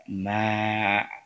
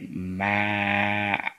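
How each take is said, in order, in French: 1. La voyelle est longue, on la tire. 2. La voyelle est longue, on la tire.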